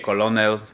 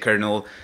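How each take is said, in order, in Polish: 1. Mówi się "ko-lo-nel", z L. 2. Mówi się jak "kernel", bez L. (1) "Pisze się kolonel" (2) "czyta się colonel"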